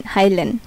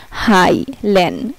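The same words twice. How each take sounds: First: Said in the usual way. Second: "হাইলেন" drawn out very slowly, then rising; slow down the example so it is heard; slow model word. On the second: Shown as a demonstration. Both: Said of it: "এই জন্য এখানে হচ্ছে হাই".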